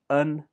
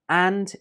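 First: The word is said with a reduced vowel. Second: The word is said with a full vowel.

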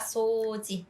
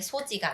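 First: The first vowel is long. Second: The first vowel is short. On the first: The speaker calls it right. "장음이 있어요" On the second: The speaker calls it wrong. "소지가 아니라"

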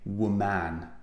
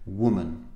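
First: The stress falls on the second syllable. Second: The stress falls on the first syllable. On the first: The speaker calls it wrong. "We don't say woman, okay? Even though we say I'm a man" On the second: The speaker calls it right. "The stress is on the first syllable, w, woman"

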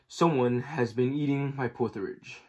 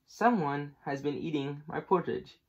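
First: It is said in Papa Bear's great big voice. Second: It is said in Mama Bear's middle-sized voice.

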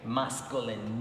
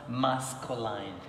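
First: The last syllable has a short pure vowel. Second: The last syllable has a gliding diphthong vowel. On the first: The speaker calls it right. "The correct pronunciation of this word is masculine. There is no diphthong here" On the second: The speaker calls it wrong. "not masculine"

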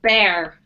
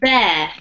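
First: The word is said in an American accent. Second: The word is said in a non-American accent. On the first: "if you want to use an American accent" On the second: "This one's pronounced bear"

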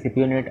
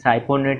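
First: The word begins with a 'si' sound. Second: The word begins with a 'sai' sound. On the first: The speaker calls it right. "बल्कि सिपियोनेट और इनैनथेट होता है" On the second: The speaker calls it wrong. "ये साइपोनेट या एनाथेट नहीं होता"

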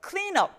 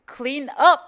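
First: The stress is on the word clean. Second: The stress is on the word up.

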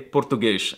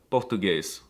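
First: The word ends with an SH sound. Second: The word ends with an S sound.

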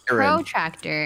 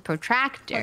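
First: The syllable tract is not strongly emphasized. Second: The syllable tract is strongly emphasized. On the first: This is how most of the group says it. "we say protractor" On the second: This is how one other person says it. "he says protractor"

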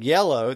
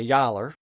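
First: The word ends in an o sound. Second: The word ends in an er sound. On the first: "instead of saying yellow" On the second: "they would say yaller"

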